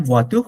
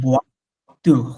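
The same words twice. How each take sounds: First: ওয়া তুহ run together as one word. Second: ওয়া, pause, then তুহ; syllable by syllable. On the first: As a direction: join ওয়া to তুহ without a break. (ওয়া তুহ একসাথে উচ্চারণ) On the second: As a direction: split ওয়া and তুহ with a breathy French r ending. (ওয়া তুহ ভেঙে ভেঙে উচ্চারণ) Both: Shown as a demonstration. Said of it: "একসাথে দুইটা".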